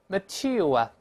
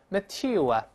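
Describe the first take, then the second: The two takes are said the same way.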